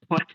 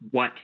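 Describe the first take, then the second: First: The word begins with a breathy h sound. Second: The word begins with a plain w sound. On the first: "throwing in that H there" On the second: "instead of saying just what"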